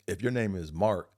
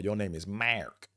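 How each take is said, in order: First: Mark is said with a plain, ordinary R. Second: Mark is said with a hard Buffalo R.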